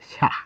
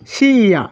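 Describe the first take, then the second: First: It is said as one merged syllable. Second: It is said as two separate syllables. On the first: The speaker calls it right. "কিন্তু এই বর্ণের উচ্চারণ হবে সা" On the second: The speaker calls it wrong. "সি ইয়া হওয়ার কথা ছিল"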